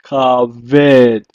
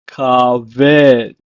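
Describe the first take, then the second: First: Kaved said loud, ka-ved, falling; Hebrew pronunciation. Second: Kaved repeated loud, ka-ved; Hebrew pronunciation. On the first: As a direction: model Kaved clearly. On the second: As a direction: model Kaved again. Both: Shown as a demonstration. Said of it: "it is pronounced as".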